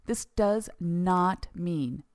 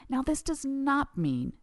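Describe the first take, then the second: First: "does" stressed, very slow and deliberate; slow repeated emphasis. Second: Slow, weighty emphasis on "this does not mean"; slow emphatic. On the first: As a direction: drag out "this does not mean" firmly. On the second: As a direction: lean on "this" high, drawn out. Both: Shown as a demonstration. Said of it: "did you hear me?".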